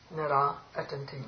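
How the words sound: There is a short pause between the two words. The speaker calls it right. "The visarga is that space"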